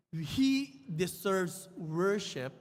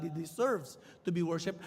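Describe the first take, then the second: First: He deserves worship drawn out word by word with a falling end; solemn preacher emphasis; slow emphatic. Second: Said in the usual way. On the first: Shown as a demonstration. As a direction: lean slowly on he deserves worship. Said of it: "But more than what he did".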